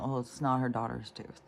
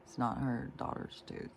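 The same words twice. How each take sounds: First: Said in the usual way. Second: Much softer, letting it sink in; softer, stunned repeat. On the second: Real, not acted. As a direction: say it again quietly, horrified. Repeated for emphasis.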